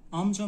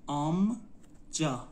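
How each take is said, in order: First: Said in the usual way. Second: آمجا drawn out as آم, pause, جا; slow teaching demo of آمجا, split in two; syllable by syllable. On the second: Shown as a demonstration. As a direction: sound out آمجا slowly in two parts. Teacher breaks word into syllables.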